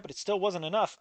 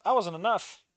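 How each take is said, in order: First: Said in the usual way. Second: I leaned on, ending in a rise; stress on I. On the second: Acted. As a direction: push the word I, let enough rise.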